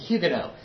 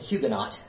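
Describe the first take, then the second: First: The opening H is sounded, the final T dropped. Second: Both the opening H and final T are sounded. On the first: This is a compromise closer to French. The speaker calls it right. "that is a better pronunciation ... I'm going to pronounce the H, but I'll drop that T" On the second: This is the American habit. The speaker calls it wrong. "break my Americanism and stop saying Huguenot"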